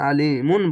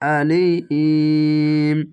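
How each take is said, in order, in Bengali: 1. শব্দের শেষে একটি যোগ করা -un ধ্বনি আছে। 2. শব্দটি দীর্ঘ স্বরসহ m-এ থামে। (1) "এখানে আলিমুন বলবেন না" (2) "থামতে হবে"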